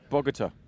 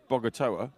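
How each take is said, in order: First: The name is said with a Spanish pronunciation. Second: The name is said with an English pronunciation. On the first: "That's the Spanish" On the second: "us English go Bogota"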